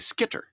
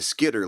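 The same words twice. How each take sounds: First: The middle consonant is a crisp T. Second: The middle consonant is a soft D. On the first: Making the spelling clear to listeners. "makes sure that they get the right spelling" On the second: Casual everyday talk. "if I'm just talking ... like somebody from the U P"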